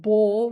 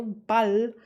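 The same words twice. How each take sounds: First: "Ball" with a long, rounded American "aw" vowel; "Ball" drawn out as an American would; American-accented German. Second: "Ball" with a short German "ah" and clear l; "Ball" short and open, the German way; real German pronunciation. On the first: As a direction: say "Ball" like the English word. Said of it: "I don't know if you can hear it". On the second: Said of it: "like real German". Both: Shown as a demonstration.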